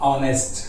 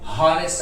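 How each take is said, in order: First: The word begins with a vowel sound. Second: The word begins with an h sound. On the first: The speaker calls it right. "దీని pronunciation ఆ ఆతో ఉంది" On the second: The speaker calls it wrong. "ఇది హానెస్ట్ అనకూడదు"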